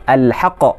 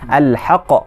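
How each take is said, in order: Both takes have the same delivery.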